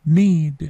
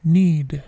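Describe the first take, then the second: The two takes are said the same way.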